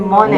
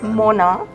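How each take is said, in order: First: The name is said with an English pronunciation. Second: The name is said with a French pronunciation. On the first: "it's easier to say" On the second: "actually Mona because it is French"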